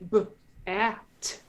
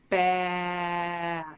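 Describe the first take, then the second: First: The sounds are split apart with a break. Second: The sounds run together as one word. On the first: "instead of saying uh" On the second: "connected phonation is like"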